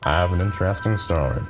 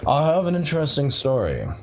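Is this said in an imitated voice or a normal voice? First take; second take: imitated; normal. First: It is spoken in an imitated narrator voice. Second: It is spoken in the speaker's ordinary voice.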